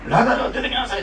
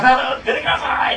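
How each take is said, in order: First: Loud call with a laugh; Japanese version call. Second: High, loud commanding call; Jesus's loud call. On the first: Repeating the Japanese wording, a laughing loud call. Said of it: "って出てこいって感じでしょ". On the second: Preacher voices Jesus calling Lazarus, high and loud. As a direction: call Lazarus out of the tomb with force. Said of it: "大声で叫んだら". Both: Retold or imitated.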